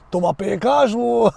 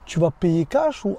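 First: Badly faked Russian accent, breaking into laughter; failed Russian accent. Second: Said in the usual way. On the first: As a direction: have a clumsy go at a Russian accent. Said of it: "j'arrive pas à le faire l'accent russe". (accent russe raté) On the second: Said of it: "avec l'accent russe".

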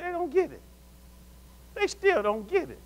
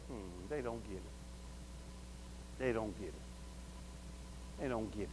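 First: Exasperated lament. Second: Very low, barely audible murmur; hushed private realization, far softer and lower; muttering to oneself. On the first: Acting out lament over others. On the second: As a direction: mutter it slowly under your breath. Muttering to oneself about people. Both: Acted.

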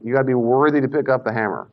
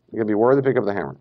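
First: Said in the usual way. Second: Rushed repeat. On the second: Shown as a demonstration. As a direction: rattle it off quickly.

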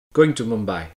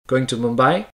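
First: MUMBAI falling low at the end; statement intonation. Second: MUMBAI rising sharply at the end; question intonation. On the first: Intonation lesson demonstrating sentences, falling tune on "Mumbai". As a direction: state it, letting "Mumbai" drop. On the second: Intonation lesson demonstrating sentences, questioning rise on "Mumbai". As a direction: ask it, lifting the pitch on "Mumbai". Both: Shown as a demonstration. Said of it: "Now listen to these sentences".

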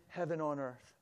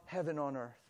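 The two takes are said the same way.

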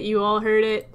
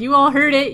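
First: Said in the usual way. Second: Insistent. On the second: Shown as a demonstration.

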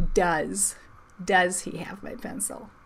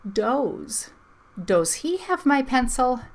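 First: Said in the usual way. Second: "Does" with a long o, rhyming with goes; DOES said as "doze". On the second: Shown as a demonstration. Teacher reads two vowels go walking, "Does" pronounced doze. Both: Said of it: "Uh-uh".

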